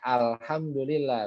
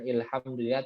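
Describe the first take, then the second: First: The word begins with the vowel a. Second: The word begins with the vowel i. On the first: The speaker calls it right. "dibacanya alhamdulillah" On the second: The speaker calls it wrong. "bukan ilhamdulillah"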